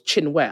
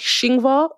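First: The name is said in two syllables, as intended. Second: The name is said with a German-style mispronunciation. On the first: This is how the name's owner says it. The speaker calls it right. "my name's two syllables, Chinwe" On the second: This is how others in Germany say the name. The speaker calls it wrong. "Here in Germany, they call me Shingvar, like Shingvar"

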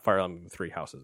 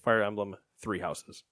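First: It is said with no pause inside. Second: There is a pause after "Fire Emblem."

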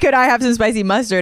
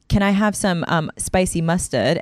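First: It is said in a put-on accent. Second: It is said in her ordinary accent.

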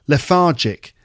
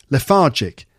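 No difference in how they are said.

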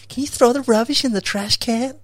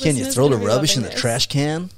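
First: It is said in a put-on female voice. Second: It is said in a put-on male voice.

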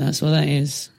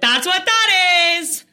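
First: It is said quietly with low energy. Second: It is said loudly with high energy. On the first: "rather than if you're like, well" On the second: "if you're quite a loud, chatty person"

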